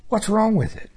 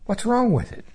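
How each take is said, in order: First: Rising puzzled plea; high puzzled question. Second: High puzzled question. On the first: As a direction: ask it high, baffled. Asking God again. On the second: Asking God about the tree. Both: Retold or imitated.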